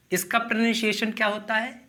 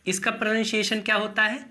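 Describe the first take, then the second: No difference in how they are said.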